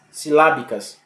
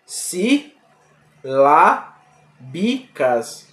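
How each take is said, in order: First: Said in the usual way. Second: "Silábicas" drawn out very slowly, syllable by syllable; sounded out slowly. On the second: Shown as a demonstration. Teacher to class, spelling the word out by syllables, very slowly. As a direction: stretch out "Silábicas", each syllable apart. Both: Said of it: "Veja, silábicas".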